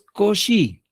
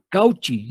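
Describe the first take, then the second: First: The name is said with a French pronunciation. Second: The name is read letter by letter as spelled. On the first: The speaker calls it right. "Es Cauchy" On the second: The speaker calls it wrong. "Claro que voy a leer Cauchy. No, no, no"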